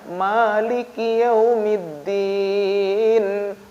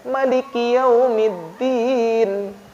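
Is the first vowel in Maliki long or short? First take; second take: long; short. First: The first vowel, ma, is held long. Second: The first vowel, ma, is kept short. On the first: "bacanya ma-nya panjang" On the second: "dia bacanya pendek"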